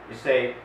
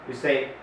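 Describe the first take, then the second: The two takes are said the same way.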